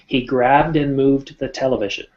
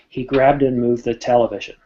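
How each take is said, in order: First: The final d is finished before moving on. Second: The words are run together loosely and lazily. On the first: The speaker is in a work setting. "but if we're speaking in a company" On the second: The speaker is among friends. "if I was with my friends, I might even be more casual"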